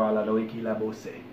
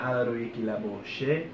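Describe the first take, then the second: First: The last word begins with an s sound. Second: The last word begins with a sh sound.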